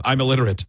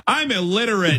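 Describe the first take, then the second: First: Said in the usual way. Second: Higher playing dumb on "I'm illiterate"; mock dumb excuse. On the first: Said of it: "it's my equivalent of". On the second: Making excuses to a mannequin, a higher playing dumb "I'm illiterate". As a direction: pitch "I'm illiterate" up silly. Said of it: "Whatever your go-to".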